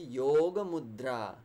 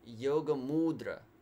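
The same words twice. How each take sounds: First: The first syllable of mudra is unstressed. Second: The first syllable of mudra is stressed. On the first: The speaker calls it right. "U is short" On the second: The speaker calls it wrong. "It's not yoga mudra. Many people are tempted to emphasize that mudra"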